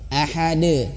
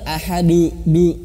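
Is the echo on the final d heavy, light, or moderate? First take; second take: moderate; heavy. First: The final d echoes moderately, neither thick nor thin. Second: The final d echoes heavy and thick. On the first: The speaker calls it right. "biasa aja" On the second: The speaker calls it wrong. "jangan tebal"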